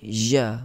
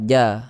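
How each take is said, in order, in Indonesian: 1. Konsonannya dilepas dengan hembusan udara yang terdengar. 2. Konsonannya dihentikan mendadak tanpa hembusan udara. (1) "Dia tidak boleh" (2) "Dia ada sifat syiddah"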